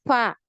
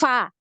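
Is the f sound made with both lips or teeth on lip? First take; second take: both lips; teeth on lip. First: Both lips meet with weak, blocked airflow. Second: Teeth touch the lower lip with strong airflow. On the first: The speaker calls it wrong. "Bukan fa, fa. Kalau ini dari kedua bibir" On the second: The speaker calls it right. "jadi deras. Fa, fa ya seperti itu"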